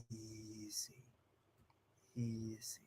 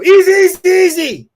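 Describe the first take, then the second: First: Soft, low, slow "Easy"; calm easy. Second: Much higher and louder, urgent "Easy, easy"; panicked easy. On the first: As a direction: ease the dog down quietly. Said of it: "move slowly and calmly". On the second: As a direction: shout it like something is wrong. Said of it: "I'm communicating panic". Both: Shown as a demonstration.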